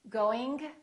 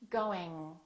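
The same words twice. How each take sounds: First: The G is audibly released at the end. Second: The G is held at the back without release. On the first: The speaker calls it wrong. "The first two are not correct" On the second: The speaker calls it right. "The last way is the correct accent"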